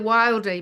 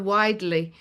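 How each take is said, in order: First: The name has an L sound before the D. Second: The name has no L sound before the D. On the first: The speaker calls it wrong. "every time I try and say it, I say the Wildly" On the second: The speaker calls it right. "it's the Widely"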